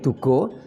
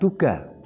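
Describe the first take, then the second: First: The word ends in an o vowel. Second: The word ends in an open a vowel. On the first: It means caution or a warning. The speaker calls it wrong. "Kalau dibaca O menjadi Dugo" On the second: It means the element of earth. The speaker calls it right. "Yang ketiga adalah Duga"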